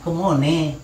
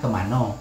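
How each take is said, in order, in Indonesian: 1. Vokal tengahnya 'o' dan kata itu berakhir dengan 'e'. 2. Kata itu berakhir dengan vokal 'o' setelah 'an'. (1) "Jadi orang rimba nak" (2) "kalau orang sini bilang"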